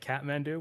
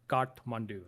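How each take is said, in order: First: It is pronounced the English way. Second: It is pronounced the Nepali way. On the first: "a lot of English people say Kathmandu" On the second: "that's how you say it in Nepali"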